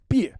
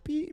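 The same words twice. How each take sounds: First: The syllable is said with a sharp falling tone. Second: The syllable is said with a high level tone. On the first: It is the speaker's name. "there's a fourth tone" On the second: It is a crude word for female genitals.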